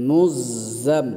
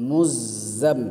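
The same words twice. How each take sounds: The two takes are said the same way.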